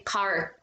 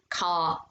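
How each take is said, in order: First: The final R is clearly pronounced. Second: The final R is dropped. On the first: "as you would say in American English" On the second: "They would say car"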